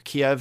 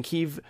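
First: Put-on Kiev said as kee-EV, the older Russian-based way; Kiev pronunciation. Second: Kyiv said as KEE-yiv, the Ukrainian way; Kyiv pronunciation. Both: Shown as a demonstration. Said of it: "however you want to pronounce".

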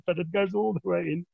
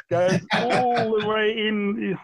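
First: Said in the usual way. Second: Slowly trace the needle going all the way in; drawn out slowly. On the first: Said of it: "Our listeners can't see that". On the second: Shown as a demonstration. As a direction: stretch out all the way in, slow and higher. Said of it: "exactly how you're showing there".

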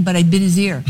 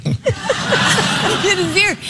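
First: Said in the usual way. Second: Words breaking into a high laugh. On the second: Real, not acted. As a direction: giggle through the line. Laughing over her own story.

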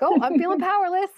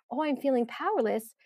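First: High, loud whiny complaint; mock whine. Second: Said in the usual way. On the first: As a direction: whine it like a frustrated spouse. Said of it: "I've caught myself whining to my husband". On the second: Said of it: "It's so nice just to think like".

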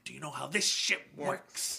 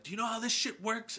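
First: Movie villain imitation. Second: High-pitched, quick quote of a film villain; imitated movie line. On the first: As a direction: lean on each word like a menacing captain. Repeats the line, more in character. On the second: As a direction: toss off the line in a raised pitch. Quoting Tony Todd's movie line.

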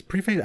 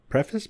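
First: Preface said as PREE-face; second pronunciation of preface. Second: Preface said as PREFF-iss; first pronunciation of preface. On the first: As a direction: say preface with long ee, then face. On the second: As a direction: say preface with a short e and weak ending. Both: Shown as a demonstration. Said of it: "I can't fucking talk today".

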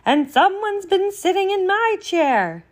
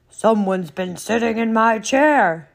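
First: High-pitched indignant mother bear; raised storybook mama voice, much higher than the narration; medium-sized Mama Bear. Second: Loud, big bear bellow; huge storybook bear voice at full volume; great huge Papa Bear. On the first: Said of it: "in her medium-sized voice". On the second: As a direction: boom it out as an indignant Papa Bear. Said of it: "in his great, huge voice". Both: Acted.

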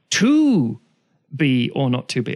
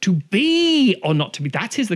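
First: "To" stressed, the rest plain. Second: "is" lifted high, the line slowed; stress on is. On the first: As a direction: punch the word "To" then fall away. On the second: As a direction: lean on "is" in "that is the". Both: Shown as a demonstration. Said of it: "puts the inflection on one word".

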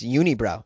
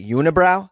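First: "unibrow" said yoo-nee-brow, Boston way; Boston pronunciation. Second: "Unibrow?" said yoo-nuh-brow, asking; standard pronunciation. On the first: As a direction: say "unibrow" with a long ee in the middle. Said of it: "the way I say unibrow". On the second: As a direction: say "Unibrow?" with a schwa in the middle. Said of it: "What do you say?". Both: Shown as a demonstration.

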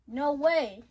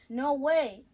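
First: Loud shocked exclamation. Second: Loud shocked exclamation again. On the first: Shocked reaction to the fight news. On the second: Same exclamation read again. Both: Acted. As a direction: blurt it out loudly in disbelief.

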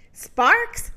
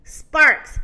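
First: "Sparks" lifted high into a question. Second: "Sparks" loud with a firm fall; confirming. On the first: Moo doubting the rooster's tale, questioning "Sparks". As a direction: say "Sparks" with a steep questioning rise. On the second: Rooster insisting to Moo, confirming "Sparks" with a fall. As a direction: state "Sparks" emphatically, pitch dropping at the end. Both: A narrator's reading.

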